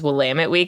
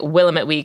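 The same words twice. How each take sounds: First: Willamette is pronounced in the local way. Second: Willamette is pronounced in a non-local way. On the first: The speaker is from the area. The speaker calls it right. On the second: The speaker is not from the area. The speaker calls it wrong.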